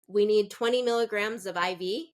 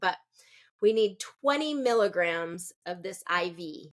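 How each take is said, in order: First: The voice rises at the end. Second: The voice falls at the end. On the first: It sounds like a question. The speaker calls it wrong. "If you go upward intonation, ... It sounds like a question" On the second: It is a firm, authoritative instruction. The speaker calls it right. "It's very strong, it's very direct. You're going to have down your downward intonation"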